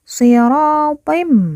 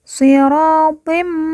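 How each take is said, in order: First: The word ends with a held, nasal m sound. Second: The word ends with a held, nasal m sound.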